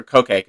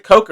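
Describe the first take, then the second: First: "Coke" pronounced KOH-kay; two-syllable Coke. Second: "Coke" rhyming with "soak"; one-syllable Coke. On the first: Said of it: "'Cause it's different from". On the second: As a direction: pronounce "Coke" like the soft drink, one syllable. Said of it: "pronounced like the soft drink". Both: Shown as a demonstration.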